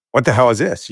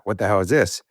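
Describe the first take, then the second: First: Shocked cry. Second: Said in the usual way. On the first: Retold or imitated. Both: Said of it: "You know, like that".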